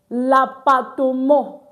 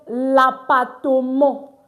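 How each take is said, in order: The two takes are said the same way.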